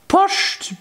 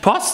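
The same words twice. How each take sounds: First: It is said with an sh sound. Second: It is said with a plain s sound. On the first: "Also mit SCH" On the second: "sie sagt nicht Post"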